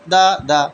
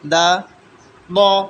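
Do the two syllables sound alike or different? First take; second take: alike; different. First: Both syllables are said with the same sound. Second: The second syllable has a heavier, distinct sound. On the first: The speaker calls it wrong. "ये गलत है।" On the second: The speaker calls it right. "सही क्या है"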